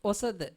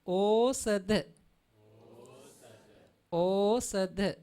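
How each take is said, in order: First: "Osada" said quickly, the o clipped short; wrong pronunciation. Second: "Osada" said slowly, the o drawn long; slow model reading of "Osada"; correct pronunciation. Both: Shown as a demonstration. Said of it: "We cannot pronounce like this".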